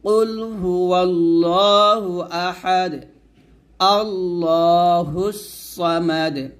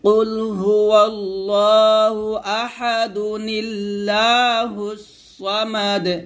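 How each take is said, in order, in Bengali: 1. Ahad পরের অংশের আগে একটি স্টপে শেষ হয়। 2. Ahad সরাসরি পরের অংশে চলে যায়, একটি বাড়তি 'nu' দিয়ে যুক্ত হয়। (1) "আর ওয়াকফ ধরলে পড়বেন" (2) "ওয়াকফ না ধরলে এরকম পড়তে হবে"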